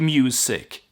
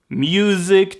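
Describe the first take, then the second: First: The middle consonant is a hissing s sound. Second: The middle consonant is a buzzing z sound. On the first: "so that tur- turns into s"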